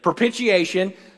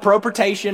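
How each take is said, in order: First: The word has five syllables, with a 'shi-ay' sound. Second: The word has four syllables, with a 'shun' ending. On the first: The speaker calls it right. "I learned how to say it correctly" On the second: The speaker calls it wrong. "I called it propitation my whole life"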